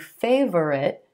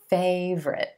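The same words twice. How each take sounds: First: The word is said with three syllables. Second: The word is said with two syllables. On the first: The speaker calls it wrong. "I know it looks like it should be favorite" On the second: The speaker calls it right. "We're just going to say two syllables"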